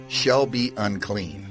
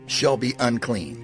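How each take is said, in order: Both takes have the same delivery.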